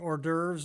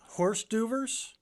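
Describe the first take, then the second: First: It is said with a French pronunciation. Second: It is said as English spelling suggests. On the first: The speaker calls it right. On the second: The speaker calls it wrong.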